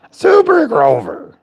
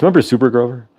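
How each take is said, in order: First: Very high, slow Muppet Grover cry. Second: Said in the usual way. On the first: Retold or imitated. Reminding friends of Super Grover, high slow Muppet cry.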